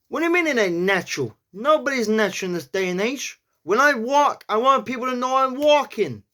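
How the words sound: It is said in a New York accent.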